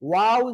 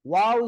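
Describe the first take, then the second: Both takes have the same delivery.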